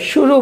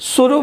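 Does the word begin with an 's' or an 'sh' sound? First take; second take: sh; s. First: The first sound is a palatal sh. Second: The first sound is a plain hissing s. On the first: The speaker calls it right. "शुरू बोलेंगे" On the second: The speaker calls it wrong. "गलत हो जाएगा"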